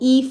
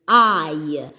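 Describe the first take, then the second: First: A short, lax vowel sound is said. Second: A long, gliding vowel sound is said. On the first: "the short sound for the letter I sounds like E" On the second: "when it is making the long sound, it sounds like this"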